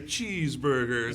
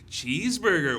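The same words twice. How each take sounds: First: It is said in a sadder tone. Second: It is said in a happier tone.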